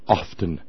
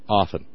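First: The T sound is clearly pronounced. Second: The T sound is left silent. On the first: The speaker calls it wrong. "people who are trying to be pretentious about their language, and they will say" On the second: The speaker calls it right. "You don't pronounce the T"

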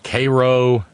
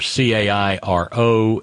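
First: Cairo is said the local anglicized way. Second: Cairo is said the usual way. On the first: "we kind of anglicize them" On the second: "Or CAIRO in Illinois is"

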